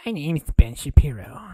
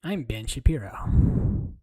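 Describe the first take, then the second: First: Loud, odd mock introduction; loud Ben Shapiro bit. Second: Slow whispered mock introduction; whispered Ben Shapiro. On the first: Streamer loudly introduces himself as Ben Shapiro. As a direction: announce yourself in a silly voice. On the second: Streamer whispers as Ben Shapiro, slow and creepy. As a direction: whisper the name like a creepy joke.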